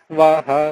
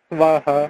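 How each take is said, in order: The two takes are said the same way.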